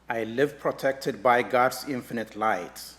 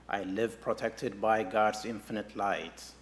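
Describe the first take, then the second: First: It is spoken in a loud voice. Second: It is spoken at normal volume. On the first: "first in a loud voice" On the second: "Now in a normal speaking voice"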